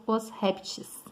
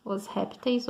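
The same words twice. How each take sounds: First: Répteis said with the ending -tchis; alternative plural. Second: Répteis stressed on RÉP, ending in -teis; first accepted plural. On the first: Teacher recapping both forms, répteis ending as -tis. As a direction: swap the -teis of répteis for TIS. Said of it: "também é correto". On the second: Teacher recapping both forms, common répteis stressed on RÉP. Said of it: "Tem duas formas de usar". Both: Shown as a demonstration.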